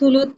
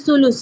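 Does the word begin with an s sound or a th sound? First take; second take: th sound; s sound. First: The word begins with a th sound. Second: The word begins with an s sound. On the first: "टी एच U L U टी एच" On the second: "एस U L U एस"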